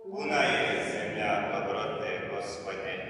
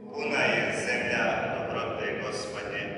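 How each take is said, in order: No difference in how they are said.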